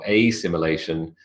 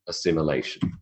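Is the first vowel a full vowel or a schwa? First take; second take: full vowel; schwa. First: The first vowel is a full, unreduced vowel. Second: The first vowel is a weak schwa. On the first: The speaker calls it wrong. "it's not assimilation" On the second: The speaker calls it right. "the first phoneme is also a schwa"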